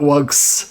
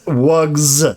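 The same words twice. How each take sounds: First: The word ends with a hissing s sound. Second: The word ends with a buzzing z sound. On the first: The speaker calls it wrong. "Not S, not wugs" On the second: The speaker calls it right. "with the the Z sound"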